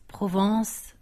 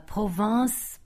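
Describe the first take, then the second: First: "Provence" said more briskly, still rising; second nasal take. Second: "Provence" drawn out slowly, rising at the end; nasal drill. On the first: Learner's second try at "Provence". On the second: Learner trying out "Provence" slowly. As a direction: stretch "Provence" carefully. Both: Shown as a demonstration. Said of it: "de Provence et Provence".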